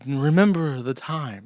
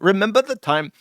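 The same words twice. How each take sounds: First: It is said in a slow, drawn-out voice. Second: It is said in a quick, punchy way. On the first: "you can't do that with the slow voice" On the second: "The the Indian speak is really punchy"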